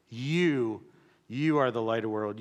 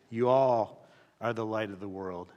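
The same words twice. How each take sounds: First: You leaned on; you said with weight, meaning all of you; stress on you. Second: All stretched and leaned on; you all are the light with all pressed; stress on all. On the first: Pastor pressing on you to the congregation. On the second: Pastor stressing the whole church, emphasised all. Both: Shown as a demonstration. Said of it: "You, not you individually".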